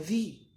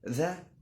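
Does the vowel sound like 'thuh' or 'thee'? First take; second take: thee; thuh. First: The vowel is a long 'ee' sound. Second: The vowel is a short 'uh' sound. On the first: It comes before a word starting with a vowel. "وممكن تقولها ذي" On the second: It comes before a word starting with a consonant. "ممكن تقولها ذا"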